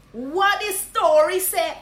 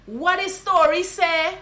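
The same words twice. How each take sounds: First: Slow, loud Guyanese Creole question; Guyanese greeting. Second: Slow, loud Guyanese Creole question; drawn-out Guyanese hail; Guyanese greeting. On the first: Guyanese teacher repeating the hail. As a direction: stretch it out Guyanese-style. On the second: Guyanese teacher showing how to hail a friend. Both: Shown as a demonstration. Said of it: "you just say".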